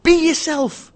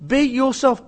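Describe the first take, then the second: First: BE YOURSELF high and loud, run together; emphatic exclamation. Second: "Be yourself" with a full, distinct YOUR; deliberate emphasis. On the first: Urging business people to drop the act, loud exclamation. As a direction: belt out "Be yourself" as one burst. Advice exclaimed, then repeated more deliberately. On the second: Driving home advice to business people, "Be yourself" said deliberately. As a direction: spell out "Be yourself" word by word. Same advice repeated word by word. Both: Real, not acted.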